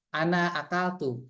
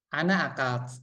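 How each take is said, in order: First: The final vowel of the verb is clearly pronounced. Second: The final vowel of the verb is dropped. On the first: The speaker calls it right. "kalau secara kaidah ya harus jelas" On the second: The speaker calls it wrong. "kalau dimatikan kan jadinya sama"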